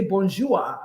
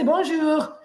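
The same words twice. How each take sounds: First: "Bonjour" botched, ending in "-zhua"; mispronounced French. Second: "Bonjour" said correctly in French, pitched higher; correct French pronunciation. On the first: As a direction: say "Bonjour" wrongly, like a beginner, with an uh sound at the end. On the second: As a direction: say "Bonjour" properly, ending on a clean French r. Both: Shown as a demonstration. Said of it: "and I say it wrongly".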